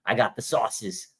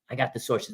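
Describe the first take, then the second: First: "sauces" said like the sauce on food, with the r dropped from "sources"; mock-drawl "sauces" in place of "sources", a little slower; lightly voiced Pat McAfee hyping his "sauces"; jokey mispronunciation. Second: Said in the usual way. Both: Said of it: "he was like".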